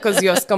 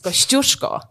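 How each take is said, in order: First: The name has an anglicised Australian pronunciation. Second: The name has its native Polish pronunciation.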